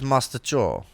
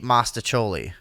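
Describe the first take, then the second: First: The word ends without its final vowel. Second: The word ends with a sounded final vowel. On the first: This copies the pronunciation heard on a TV show. "after The Sopranos came on, it was mustachol" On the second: This is the family's usual everyday pronunciation. "my whole life, we ate mastacholi"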